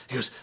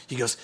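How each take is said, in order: Both takes have the same delivery.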